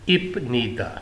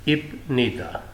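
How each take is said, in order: Both takes have the same delivery.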